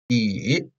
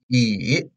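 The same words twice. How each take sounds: First: The pitch dips low and then rises. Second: The same.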